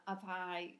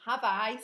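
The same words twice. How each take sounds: First: Casual northern English accent. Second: "have I" said louder, with firm stress; emphatic correction. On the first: Speaker stumbling over a question, northern accent. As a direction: let the northern accent slip out. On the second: Speaker correcting their accent slip, emphatic "have I". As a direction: restate "have I" loudly and emphatically. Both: Real, not acted. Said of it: "see, there's the accent again".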